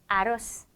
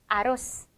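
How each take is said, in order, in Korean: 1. 끝의 z는 날카로운 s로 발음합니다. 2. 끝의 z는 날카로운 s로 발음합니다.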